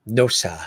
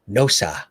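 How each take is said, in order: No difference in how they are said.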